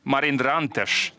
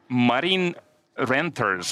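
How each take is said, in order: First: The name ends with an 'sh' sound. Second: The name ends with a plain 's' sound. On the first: The speaker calls it right. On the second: The speaker calls it wrong.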